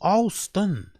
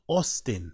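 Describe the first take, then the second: First: The first vowel sounds like the word 'all'. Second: The first vowel is a plain open 'ah' sound. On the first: "He says Alston. A W L almost. All" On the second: "Not Austin"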